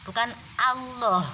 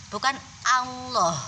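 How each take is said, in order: Both takes have the same delivery.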